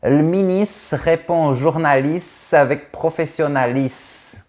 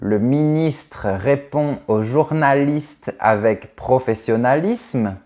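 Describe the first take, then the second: First: The word endings are clipped off. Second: The word endings are fully pronounced. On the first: "les Canadiens adorent couper la fin de certains mots" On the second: "au lieu de dire"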